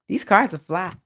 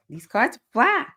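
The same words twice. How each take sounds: First: Said in the usual way. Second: Higher, sing-song, rising on "fly"; playful repeat. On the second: Real, not acted. To viewers admiring the deck, sing-song "fly". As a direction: savor "fly" with a lift, showing off.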